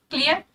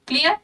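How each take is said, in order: Both takes have the same delivery.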